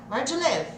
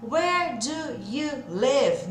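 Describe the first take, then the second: First: "Where do you live" glued into one quick burst; "do you" squashed into "djə" inside "Where do you live"; tudo grudado. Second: Very slow, stretched, word by word; WHERE, DO, YOU, LIVE each dragged out alone; separado, devagarzinho. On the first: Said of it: "Vai grudar tudo e soltar numa só". ("Where do you live" rápido, tudo grudado) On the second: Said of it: "o inglês da vida real não é falado assim". (bem devagar, palavra por palavra) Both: Shown as a demonstration.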